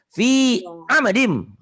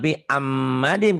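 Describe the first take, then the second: First: The m sound is short and single. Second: The m sound is held doubled. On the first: The speaker calls it right. "ini nggak ada tasdid di sini" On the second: The speaker calls it wrong. "Jangan pi amadim. Kalau pi amadim berarti mim, mimnya ada tasdidnya"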